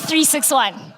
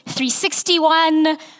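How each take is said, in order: First: Each digit is said separately, six one. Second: The last part is said as sixty-one. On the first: The speaker calls it right. "but it is actually three six one" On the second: The speaker calls it wrong. "sometimes it's three sixty-one"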